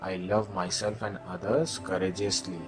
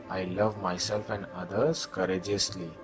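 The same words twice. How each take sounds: The two takes are said the same way.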